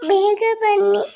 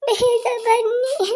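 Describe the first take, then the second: First: High, tearful call of ಬೇಗ ಬನ್ನಿ at normal pace; tearful plea. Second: High, very slow ಬೇಗ ಬನ್ನಿ, each word stretched out; drawn-out tearful plea. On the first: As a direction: beg them to come back. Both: Acted. Child calls parents.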